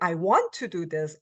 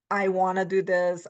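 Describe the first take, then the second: First: Want to is said in full, clearly separated. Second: Want to is reduced to a short casual form. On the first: "hardly we ever say" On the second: "we say"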